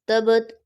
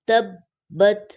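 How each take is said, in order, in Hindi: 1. b छोटी है, कोई रुकावट नहीं। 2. b दोहरी है, थोड़ी देर की रुकावट के साथ। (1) "तबत ऐसे नहीं" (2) "बत शब्द को अच्छे तरीके से जाहिर करके पढ़ना है"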